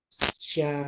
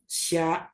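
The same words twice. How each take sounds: First: The syllable ends open and released, without a stop. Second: The syllable is cut off with an abrupt stop. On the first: The speaker calls it right. "Kalau yang betul itu yang tidak terputus" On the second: The speaker calls it wrong.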